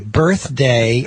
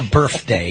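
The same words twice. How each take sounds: First: The middle sound is said like a TH. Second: The middle sound is said like an F. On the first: The speaker calls it right. "you gotta get that T H" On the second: The speaker calls it wrong. "quit saying F"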